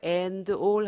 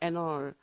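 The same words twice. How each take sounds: First: The two words are said separately and fully. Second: The d fades and n links into all. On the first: The speaker calls it wrong. "하지 말고요" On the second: The speaker calls it right. "n하고 d는 소리 약해지고 n하고 a를 연음시킨다고"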